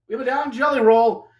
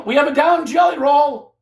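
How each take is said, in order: First: Said in the usual way. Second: Shouted commentator alarm, pitched up. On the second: Real, not acted. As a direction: yell it like a ringside emergency. Calling a wrestler down.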